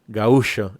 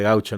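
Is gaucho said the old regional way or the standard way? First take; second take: old regional; standard. First: It is said the old regional way. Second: It is said the standard way. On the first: "que algunos viejos orientales todavía pronuncian gaú, como lo acabo de decir yo" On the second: "en lugar de gaucho"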